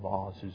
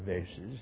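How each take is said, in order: First: The word is said in a posh, affected way. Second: The word is said in an ordinary, everyday way. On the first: The speaker is putting on airs. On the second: The speaker is talking plainly.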